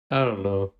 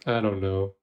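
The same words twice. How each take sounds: The two takes are said the same way.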